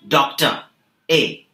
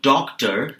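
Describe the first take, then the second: First: "Doctor" with the final R dropped to an open "ah"; Australian R-less doctor. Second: Said in the usual way. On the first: Shown as a demonstration. Teacher showing learners the dropped R, "Doctor" ending in an open vowel. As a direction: say "Doctor" Australian-style, no R at the end. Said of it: "do not pronounce the letter R". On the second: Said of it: "that we usually say".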